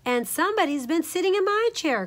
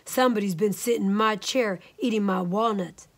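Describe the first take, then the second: First: High middle-sized bear, crying out; higher storybook bear complaint; Mama Honey Bear. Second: Lightly voiced big bear growl; understated big-bear complaint; Papa Bear. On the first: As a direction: pitch it up as an upset mother bear. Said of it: "cried Mama Honey Bear in her middle-sized voice". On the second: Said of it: "growled in his great big bear voice". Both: A narrator's reading.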